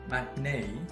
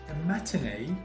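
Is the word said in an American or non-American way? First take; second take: American; non-American. First: It is said in an American way. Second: It is said in a non-American way.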